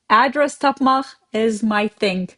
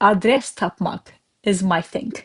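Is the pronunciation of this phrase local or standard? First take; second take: standard; local. First: The words are said in a standard, non-local way. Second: The words are said with a local Azerbaijani pronunciation.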